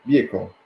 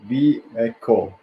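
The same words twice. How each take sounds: First: Said in the usual way. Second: "Vehicle" drawn out slowly, part by part; "Vehicle" stretched to work out the word; sounded out. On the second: Shown as a demonstration. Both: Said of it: "what was the word?".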